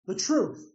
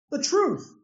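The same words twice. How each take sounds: First: Said in the usual way. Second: "The truth" lifted higher, a ringing falling answer; emphatic answer. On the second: Real, not acted. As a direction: ring out "The truth" as the final verdict. Repeats answer, two contrasting takes.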